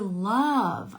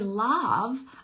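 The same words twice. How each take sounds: First: The vowel sounds like native English. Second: The vowel sounds foreign, not native English. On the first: The speaker calls it right. "I can say it the way a native speaker says it" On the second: The speaker calls it wrong. "I finally don't say love"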